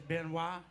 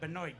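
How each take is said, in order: First: The ending is said the French way. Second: The ending is not said the French way. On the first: The speaker calls it right. "It is Benoit" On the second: The speaker calls it wrong. "It's not that Benoit guy"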